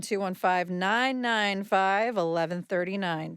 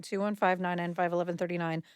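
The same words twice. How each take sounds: First: Slow, careful phone-number read; slow and clear. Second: Fast, rattled-off phone number; quick repeat. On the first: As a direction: spell the number out slowly for listeners. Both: Acted. Repeats number slowly then fast.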